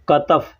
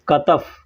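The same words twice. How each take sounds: Both takes have the same delivery.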